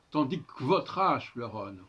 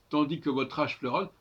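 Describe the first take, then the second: First: "tandis que votre" run as tandik-votre; elided e in "que". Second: "que votre" with a full schwa in que; e of "que" sounded. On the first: Teacher gives the corrected verse, "que votre" said as k'votre. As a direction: drop the e of "que" before "votre". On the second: Teacher quotes the line before correcting it, "que" fully sounded. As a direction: keep "que" its own syllable before "votre". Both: Shown as a demonstration. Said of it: "il faudrait dire".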